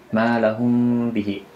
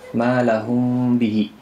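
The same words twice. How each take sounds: No difference in how they are said.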